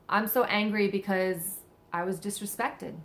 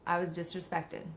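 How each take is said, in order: First: Said in the usual way. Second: Softer, hushed repeat; quiet echo. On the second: Pretend. Speaker repeats the real feeling to herself, softer. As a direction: drop the voice and let it land.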